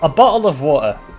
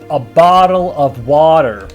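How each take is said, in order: First: It is said in the speaker's British accent. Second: It is said in an American accent.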